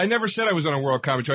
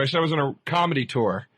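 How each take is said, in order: First: Hurried denial, leaning on "never"; stress on NEVER. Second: Corrective emphasis on "comedy", then falling; stress on COMEDY. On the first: Host denies the caller's claim about his tour, stressing "never". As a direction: rush the correction and press on "never". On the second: Host gives the caller his real wording, stressing "comedy". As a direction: set them straight by pressing on "comedy". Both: Real, not acted.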